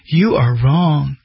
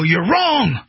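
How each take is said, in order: First: It is said flatly, without enthusiasm. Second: It is said forcefully, with enthusiasm. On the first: The speaker calls it wrong. "you don't go" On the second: The speaker calls it right. "you say it with enthusiasm"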